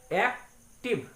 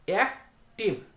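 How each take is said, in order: First: एक्टिव said slowly as एक-टिव, two beats; slow एक्टिव broken into two parts; split into syllables. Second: Said in the usual way. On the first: Shown as a demonstration. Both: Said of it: "दो बार में हम लोग उसको उच्चारण करते हैं".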